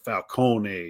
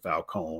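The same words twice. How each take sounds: First: The final vowel of the name is pronounced. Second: The final vowel of the name is silent. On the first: "pronounce the vowel at the end" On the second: "to switch it just"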